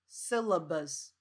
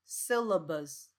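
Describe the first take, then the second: No difference in how they are said.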